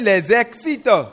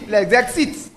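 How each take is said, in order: First: The s of les links as z into excite. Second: The s of les is not sounded before excite. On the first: The speaker calls it right. "La liaison" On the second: The speaker calls it wrong. "Vous ne pouvez pas dire les excite"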